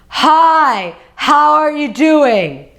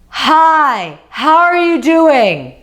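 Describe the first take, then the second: First: It is a deep voice from the belly. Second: It is a deep voice from the belly.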